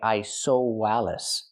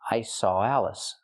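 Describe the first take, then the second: First: A w sound is inserted before 'Alice'. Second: 'Saw' links straight into 'Alice' without w. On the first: The speaker calls it wrong. "You cannot say I saw Wallace" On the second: The speaker calls it right. "If I link the sounds, it's like this"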